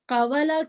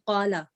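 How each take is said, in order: First: A 'w' sound separates the two vowels. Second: A long vowel replaces the middle 'w' sound. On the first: This is the underlying root form. "कवाला कहने से ज्यादा आसान क्या है" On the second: This form is easier to pronounce. "आसानी के लिए, प्रोनाउंसिएशन की आसानी के लिए"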